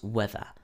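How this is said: It is said with a British accent. "In British English we say weather"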